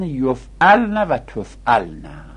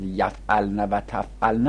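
First: یفعلن و تفعلن with an "o" after the first consonant, drawn out; slow, rounded "yo" and "to" starting یفعلن and تفعلن; corrected vowel reading. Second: یفعلن و تفعلن with an "a" after the first consonant; mistaken vowel reading. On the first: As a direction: say یفعلن و تفعلن slowly as "yof'alna va tof'alna". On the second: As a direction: say یفعلن و تفعلن as "yaf'alna va taf'alna". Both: Shown as a demonstration. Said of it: "این غلطه".

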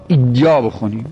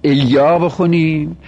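First: "ایا" as iyyâ, opening on a full i; with ishba. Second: "ایا" as eyyâ, opening on a short e; without ishba. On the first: Teacher contrasting two readings, "ایا" with ishba as iyyâ. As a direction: fill out the first vowel of "ایا" to a clear ee sound. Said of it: "به اشباع بخونیم یا بدون". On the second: Teacher contrasting two readings, "ایا" without ishba as eyyâ. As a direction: keep the first vowel of "ایا" light, an e rather than a full i. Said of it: "بخونیم بی اشباع". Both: Shown as a demonstration.

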